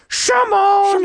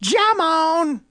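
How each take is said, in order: First: The name starts with a sh sound. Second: The name starts with a j sound. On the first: "If it's a shush, like shoot, it'd be Shamon" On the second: "If it's a J, it'd be Shamon"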